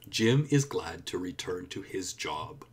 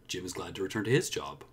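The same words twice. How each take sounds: First: Every word is pronounced fully and separately. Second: Small words are reduced and run together. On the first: "you can hear every word clearly" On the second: "It's the sound of me saying to and it"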